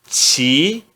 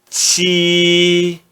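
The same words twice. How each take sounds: First: The syllable is said in the second tone. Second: The syllable is said in the first tone. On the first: "No segundo tom" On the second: "No primeiro tom"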